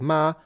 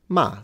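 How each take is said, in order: First: The pitch stays high and level. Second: The pitch falls sharply from high to low.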